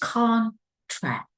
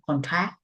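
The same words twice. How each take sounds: First: The stress is on the first syllable. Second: The stress is on the second syllable. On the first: The speaker calls it right. "The right English is contract. We stress the very first syllable" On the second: The speaker calls it wrong. "Vietnamese people pronounce contract"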